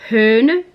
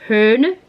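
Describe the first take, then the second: No difference in how they are said.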